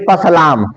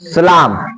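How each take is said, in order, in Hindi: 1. यह शब्द s से पहले p ध्वनि से शुरू होता है। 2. यह शब्द s ध्वनि से शुरू होता है, p नहीं। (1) "तो ये मत कहना कि पसलाम" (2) "इसमें क्या पढ़ेंगे इसको? सलाम। ठीक है ना?"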